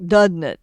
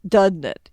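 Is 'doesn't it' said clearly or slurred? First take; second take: slurred; slurred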